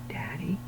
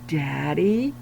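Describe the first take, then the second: First: It is said very quietly. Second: It is said a little louder.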